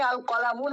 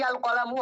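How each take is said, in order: First: "আল কলামুন" ending in an audible ন sound; tanween ending. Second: "আল কলামু" ending on an open u, no ন; ending without tanween. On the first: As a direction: say "আল কলামুন", closing on -un. ("আল কলামুন", শেষে ন উচ্চারণ করে) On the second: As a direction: say "আল কলামু", dropping the final n. ("আল কলামু", শেষে ন ছাড়া উ-কারে শেষ) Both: Shown as a demonstration. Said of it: "আল কলামুন হবে নাকি আল কলামু হবে".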